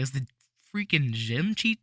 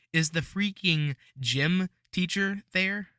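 First: "gym cheat" slurred out instead of "gym teacher"; tongue-tied slip. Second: Slow, clear "gym teacher there"; careful correction. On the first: Real, not acted. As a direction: garble "freaking gym cheat" as a verbal stumble. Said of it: "that's what I say when I can't speak". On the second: Shown as a demonstration. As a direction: say "freaking gym teacher" slowly and cleanly. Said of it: "That's better".

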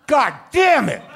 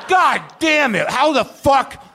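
First: High, loud cry of delight; ecstatic yell. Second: Slower, high, loud shout of delight; drawn-out ecstatic yell. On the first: Acting out first bite of the cake pop, loud ecstatic shout. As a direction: shout like the cake pop blew your mind. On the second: Acting out first bite of the cake pop, slower ecstatic shout. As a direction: stretch the cry out, still amazed. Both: Pretend. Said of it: "the experience I had when I ate my first cake pop".

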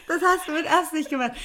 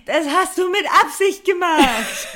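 First: Put-on high, laughing kid-like whine; childish repeat. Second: Put-on high, loud childish accusation through laughter. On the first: Repeating the accusation to the man, childish with laughter. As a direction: say it again like a sulky child. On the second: Accusing the guy who spilled beer, childish and loud. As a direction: whine it like a little kid caught out. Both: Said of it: "wie so ein Kind reagiert".

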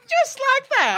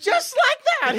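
First: High farmer voice. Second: Said in the usual way. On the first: Acted. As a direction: jump way up high, excited. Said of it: "he says". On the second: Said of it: "can you do a ghost sound for me".

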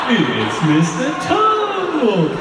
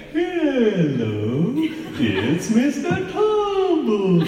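First: High, very slow, loud stretched clown voice; Mister Tumble loading version. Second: High, stretched sing-song clown greeting; a child's squeaky kids-TV clown hello; Mister Tumble clown voice. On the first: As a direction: drag it out like a buffering iPad. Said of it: "doing an impression of the iPad". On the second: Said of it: "a bit of a strange sort of clown voice". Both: Retold or imitated.

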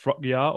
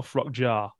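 First: Frockjar said slowly as "frock-yar"; y-sound pronunciation. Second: Frockjar said slowly as "frock-jar"; j-sound pronunciation. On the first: Host weighing up the new signing's name, Frockjar as "frock-yar". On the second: Host asking co-host about the alternative, Frockjar as "frock-jar". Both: Shown as a demonstration. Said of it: "What do you reckon?".

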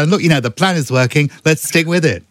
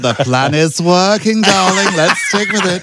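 First: Brisk, chirpy Rishi Sunak voice; quick upbeat prime minister voice; Rishi Sunak impression. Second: Slow, higher, camp host drawl; game show host voice. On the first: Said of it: "You're Rishi Sunak". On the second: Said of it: "drifting into Del Winton now". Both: Shown as a demonstration.

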